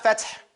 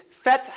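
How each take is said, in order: First: Feth said the wrong way. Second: Feth with the correct breathy sound; right Feth. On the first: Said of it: "But it's not". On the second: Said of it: "But it's not Feth. It's Feth". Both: Shown as a demonstration.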